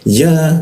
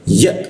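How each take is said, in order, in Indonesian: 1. Vokalnya dipanjangkan. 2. Vokalnya berhenti mendadak di tenggorokan. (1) "Jika tidak ada hamzahnya maka iya-nya panjang" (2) "kalau ada hamzahnya maka dia mentok nih suaranya"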